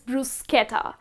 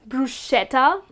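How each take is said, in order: First: It is pronounced the other, less common way. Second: It is pronounced the common, spelling-based way. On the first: The speaker calls it right. "but it is bruschetta" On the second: The speaker calls it wrong. "we all tend to pronounce it as bruschetta"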